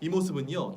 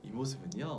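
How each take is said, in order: First: It is said with force and stiffness. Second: It is said softly, shyly, with a smile. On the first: It sounds like a formal speech, not a personal story. The speaker calls it wrong. "이렇게 들어가면 딱딱한 느낌인 거지" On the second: It sounds like telling one's own story. The speaker calls it right. "좀 쑥스러운 느낌을 내서 살짝 미소를 띠면서"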